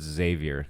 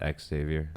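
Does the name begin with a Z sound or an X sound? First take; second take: Z sound; X sound. First: The name begins with a Z sound. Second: The name begins with an X sound. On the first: The speaker calls it right. "the X is a Z in that name" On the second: The speaker calls it wrong.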